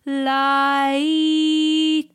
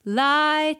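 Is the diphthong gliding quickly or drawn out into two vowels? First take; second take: drawn out; gliding quickly. First: Both vowels are drawn out dramatically and separately. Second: The two vowels glide together quickly as one. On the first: "så sier man light" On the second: "i stedet for å si light"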